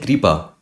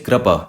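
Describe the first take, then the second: First: The k is followed by a clear 'ri' sound. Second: The k is followed by a clear 'ra' sound. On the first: "this vowel is neither pronounced as ri. You don't say kripa" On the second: "nor it is pronounced pronounced as ra. You don't say krapa"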